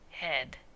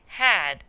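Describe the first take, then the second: First: The vowel sounds like standard 'head'. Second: The vowel sounds like the one in 'had'. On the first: "is actually head" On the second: "had is actually"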